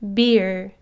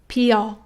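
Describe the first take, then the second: First: The b buzzes strongly in the throat. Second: The b barely buzzes and pops open. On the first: "English b sound" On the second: "Korean 비읍 sound"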